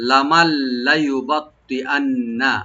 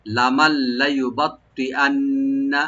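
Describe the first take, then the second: First: লামাল লায়ুবাত্তিআন্না recited very slowly, syllable by syllable; careful recitation. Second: লামাল লায়ুবাত্তিআন্না again very slowly, lam open; careful recitation repeated. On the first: Teacher models a hard word slowly. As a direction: draw it out carefully. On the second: Teacher repeats hard word slowly for students. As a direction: repeat it slow and even. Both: Shown as a demonstration. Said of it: "খেয়াল করে পড়তে হবে".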